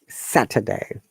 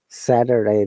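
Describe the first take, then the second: First: It is said in a British accent. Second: It is said in an American accent. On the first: "That's the British I P A" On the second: "The T sounds like flat T"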